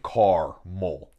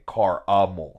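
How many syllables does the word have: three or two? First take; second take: two; three. First: It is said in two syllables, no middle vowel. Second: It is said in three syllables, quick middle vowel. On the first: "I'm not saying car-mol, yeah. C-A-R-M-E-L" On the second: "I'm saying car-a-mol"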